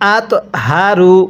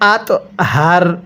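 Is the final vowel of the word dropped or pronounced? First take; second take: pronounced; dropped. First: The word ends with a short vowel. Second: The word ends without a final vowel. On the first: The recitation continues without stopping. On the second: The reciter stops at this point.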